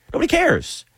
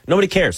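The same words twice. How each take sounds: First: Cares jumps up high in exasperation; exasperated high nobody cares. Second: Said in the usual way. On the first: Real, not acted. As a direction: throw it up high, fed up with the gatekeepers. Repeats it, mocking gatekeeping fans.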